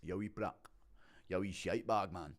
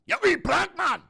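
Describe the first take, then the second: First: Softer, restrained Scottish insult; Scottish accent. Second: High, screamed Scottish insult; Scottish accent. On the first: Showing a viewer Scottish insults, restrained Scottish accent. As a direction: trade Scottish insults without raising the voice. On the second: Showing a viewer Scottish insults, screamed Scottish accent. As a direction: shriek it loudly in Scottish. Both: Shown as a demonstration. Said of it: "a Scottish accent's a bit more like that".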